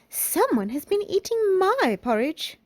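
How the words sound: A medium, moderate-pitched voice. A medium-sized character speaks. "in her middle-sized voice"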